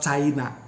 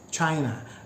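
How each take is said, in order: First: The first consonant is released suddenly, like a stop. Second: The first consonant is released slowly, like 'ch'. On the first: The speaker calls it wrong. "not China. China is Sudanese" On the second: The speaker calls it right. "it should be pronounced as China"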